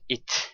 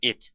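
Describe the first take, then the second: First: The final T is fully released. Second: The final T is stopped, not released. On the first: The speaker calls it wrong. "So it is not it" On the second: The speaker calls it right. "but we are saying it"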